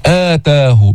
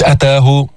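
First: آتاه with a long opening "aa", as aataahu; chanted lengthened start on آتاه; madd al-badal. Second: أتاه with a clipped first "a", as ataahu; quick unlengthened start on أتاه; short vowel mistake. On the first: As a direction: stretch the first vowel of آتاه two counts. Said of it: "كمان في مد بدل". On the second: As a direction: shorten the opening of أتاه wrongly. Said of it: "مش". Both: Shown as a demonstration.

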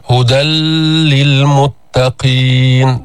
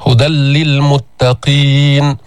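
First: للمتقين with the doubled لام held far too long, very slowly; wrong stop on the doubled letter. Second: للمتقين with a brief doubled لام, then flowing straight on; correct tajweed reading. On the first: Tajweed teacher shows students the mistake, dragging out للمتقين. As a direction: linger wrongly on the shadda in للمتقين. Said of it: "ليس هكذا". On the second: Tajweed teacher shows students the right way, smooth doubled لام. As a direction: stress the لام in للمتقين and keep moving. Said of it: "وإنما تشدد الحرف وتمضي في القراءة". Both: Shown as a demonstration.

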